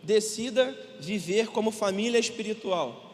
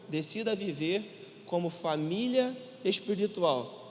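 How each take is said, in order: First: It is read at a normal speaking pace. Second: It is read slowly and deliberately.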